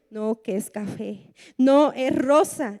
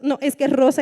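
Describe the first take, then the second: First: Slower other voice. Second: Insisting loudly, a little mock-stubborn; stubborn insistence. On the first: Retold or imitated. Preacher voicing the other side of a petty floor-colour argument. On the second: Preacher acting a believer who insists the brown floor is pink. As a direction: dig in on "rosa" like a child arguing. Two people argue floor colour.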